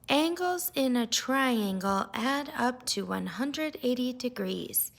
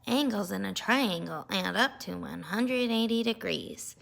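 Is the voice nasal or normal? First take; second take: normal; nasal. First: It is said in a plain, normal voice. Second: It is said in a pinched, nasal voice. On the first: The chapter is read out sincerely. "started reading the chapter out loud" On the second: The reader is being mocked by copying. "that just made him copy me even more"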